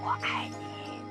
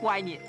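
First: It is said quietly. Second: It is said loudly.

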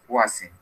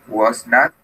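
First: It is said as one contracted word. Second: It is said as two full words. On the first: "the contraction here in the parentheses is the short way" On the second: "this is the long way"

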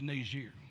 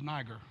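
First: The name is said with the French pronunciation. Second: The name is said without the French pronunciation. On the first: The speaker calls it right. "It's actually a French pronunciation. It's Niger" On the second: The speaker calls it wrong. "for years, pronounced it as Niger. It's not pronounced properly"

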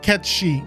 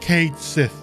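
First: The name sounds like 'Ketchy', with a ch sound. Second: The name sounds like 'Kate Sith', with a th sound. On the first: The speaker calls it right. "I said Ketshi" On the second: The speaker calls it wrong. "not Kate Sith. That's not how it's pronounced"

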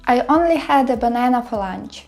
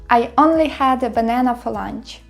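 The two takes are said the same way.

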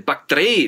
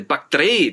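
First: The opening syllables are clipped and compact. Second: The same.

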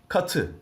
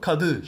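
First: The middle consonant is a voiceless 't'. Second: The middle consonant is a voiced 'd'. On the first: The speaker calls it right. "I ünlüsünü aldığında katı" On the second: The speaker calls it wrong. "bunu kadı şeklinde yumuşatarak söyleyemiyoruz"

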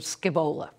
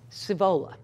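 First: The word is said the way it is spelled. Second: The word is not said the way it is spelled. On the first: The speaker calls it wrong. "as opposed to" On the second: The speaker calls it right. "is not pronounced as spelled"

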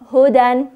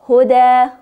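First: The word ends with an n sound. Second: The word ends with a long a vowel. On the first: This is the form used when reading on without stopping. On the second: This is the form used when stopping on the word.

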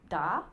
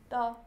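First: The pitch dips low and then rises. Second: The pitch stays high and level. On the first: The speaker cannot understand why the other doesn't see it. "that is the third tone" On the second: The boy points out something he has spotted. "that's the first tone in Chinese"

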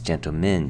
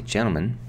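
First: The T in the middle is clearly pronounced. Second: The T in the middle is left out.

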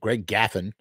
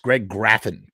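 First: The surname is said without an R sound. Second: The surname is said with an R sound. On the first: The speaker calls it wrong. "They mispronounced his name" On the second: The speaker calls it right. "Graffin with an R"

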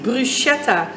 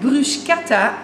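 First: The ch is not pronounced as a k sound. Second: The ch is pronounced as a k sound. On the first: The speaker calls it wrong. "en niet bruschetta" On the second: The speaker calls it right. "in Italië wordt de ch-klank als een k uitgesproken"

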